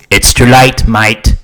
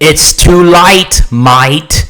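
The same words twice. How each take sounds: First: The A vowel is shifted only moderately toward I. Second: The A vowel is pushed far toward an I sound. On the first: The speaker calls it right. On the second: The speaker calls it wrong.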